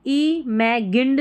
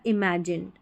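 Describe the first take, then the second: First: इमेजिन्ड with a hard g, the wrong way. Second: इमेजिन्ड with the g as a soft j, lower and quiet; इमेजिन्ड said i-ma-jind; correct with soft j. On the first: Teacher showing the wrong इमेजिन्ड, hard g. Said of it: "इमेजिन्ड नहीं पढ़ेंगे". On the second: Teacher giving the right इमेजिन्ड, j sound. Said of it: "जी को यहाँ पर ज पढ़ा जा रहा है". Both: Shown as a demonstration.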